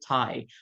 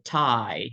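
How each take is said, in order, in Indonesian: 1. Vokal pembuka diftong itu pendek. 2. Vokal pembuka diftong itu panjang. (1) "jangan bacanya kayak" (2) "jadi agak panjang sedikit uh, huruf A-nya"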